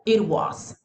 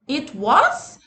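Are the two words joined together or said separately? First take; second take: joined; separately. First: The two words are joined together quickly. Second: The two words are said separately.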